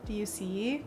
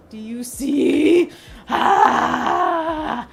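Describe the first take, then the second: First: Soft hushed "Do you see?"; quiet question. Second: Slow, loud, high "Do you see?"; excited shout. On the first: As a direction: ask softly. First take, quiet. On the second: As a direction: call it out loud in delight. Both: Real, not acted.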